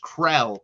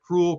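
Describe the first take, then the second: First: The name has an eh vowel, rhyming with bell. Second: The name sounds like the word cruel. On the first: The speaker calls it right. "It is Krell. That is how you pronounce the last name" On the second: The speaker calls it wrong. "some people have pronounced it Cruel"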